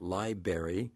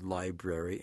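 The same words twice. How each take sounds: First: "library" said lie-BARE-ee without the first R; dropped first R. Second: "library" said lie-BRARE-ee with the first R clearly sounded; careful "library", both R sounds pronounced. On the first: Host contrasts the wrong form: "library" with the first R dropped. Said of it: "the word is not library". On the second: Host shows listeners the standard way: careful "library" with the first R sounded. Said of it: "the first R is sounded". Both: Shown as a demonstration.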